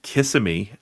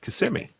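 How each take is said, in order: First: It uses the common outsider pronunciation. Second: It uses the residents' own pronunciation. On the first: People from the wider area say it this way. "around in Orlando, everybody calls it Kissimmee" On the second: People who live there say it this way. "if you actually live here, it's Kissimmee"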